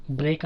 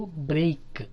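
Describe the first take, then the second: First: బ్రేక్ with a pure e; single vowel. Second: బ్రేక్ as "breh-ik"; stretched two-sound vowel in బ్రేక్; diphthong glide. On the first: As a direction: say బ్రేక్ as "brehk", no glide. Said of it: "అంటాము". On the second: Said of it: "అని అనాలి". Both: Shown as a demonstration.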